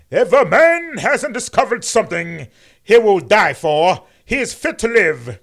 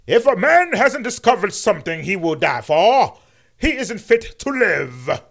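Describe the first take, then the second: First: Loud, higher oratorical King voice; booming mock King sermon; MLK impression. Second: Loud, higher pulpit voice, slowing on the last words; booming mock King sermon, fixed line; MLK impression, corrected. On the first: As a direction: preach it with swelling pulpit rhythm. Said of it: "Excuse me, I said that wrong". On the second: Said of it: "How you like my M L K impression now".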